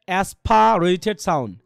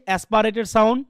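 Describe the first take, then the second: First: "aspirated" drawn out slowly with a puffed P; aspirated P demonstrated. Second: Said in the usual way. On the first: Shown as a demonstration. Teacher introducing aspirated sound to students, P slowly exaggerated in "aspirated". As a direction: stretch "aspirated", hitting an airy "pha".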